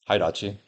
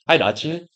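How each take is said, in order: First: It sounds cold and uninterested. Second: It sounds warm and smiling.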